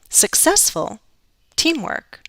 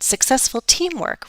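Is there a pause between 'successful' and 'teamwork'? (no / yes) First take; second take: yes; no. First: There is a pause after the first word. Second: The two words run together without a pause. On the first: The speaker calls it wrong. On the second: The speaker calls it right.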